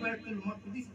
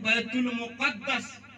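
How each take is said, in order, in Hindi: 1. दूसरा शब्द maqdis उच्चारित होता है, दो अक्षर। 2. दूसरा शब्द muqaddas उच्चारित होता है, तीन अक्षर। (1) "असली जो डिक्शनरी का वर्ड है, बैतुल मुक़द्दस नहीं, बैतुल मक़दिस बोला जाता है" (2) "हम लोग बोल देते हैं बैतुल मुक़द्दस"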